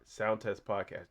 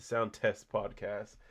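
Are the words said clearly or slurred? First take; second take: slurred; clear. First: The words are slurred together and unclear. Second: Each word is articulated clearly and carefully. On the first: The speaker calls it wrong. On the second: The speaker calls it right.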